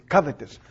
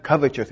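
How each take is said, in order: First: "covetous" with a plain t, "cov-e-tus"; corrected pronunciation. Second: "covetous" said with a ch, like "covechous"; variant pronunciation. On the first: Quoting friends who correct it, "covetous" ending in "tus". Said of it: "used to say, "No, it's not". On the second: Citing the pronunciation others use, "covetous" ending in "chus". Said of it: "some people pronounce it covetous". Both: Shown as a demonstration.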